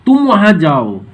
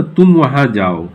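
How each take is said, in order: First: "तुम" stressed with a falling tune; a firm command leaning on "तुम"; emphatic order. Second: Said in the usual way. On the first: Shown as a demonstration. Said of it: "हम जोर दे के बोलते हैं". ("तुम" पर ज़ोर देकर आदेश) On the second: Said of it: "जब हम एम्फेटिक बनाते हैं".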